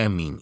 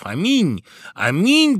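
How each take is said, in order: First: Said in the usual way. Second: High, loud exclamation from the guests; shouted amen. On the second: A narrator's reading. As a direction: cry it out, rising higher and louder. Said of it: "Это закричали званые гости".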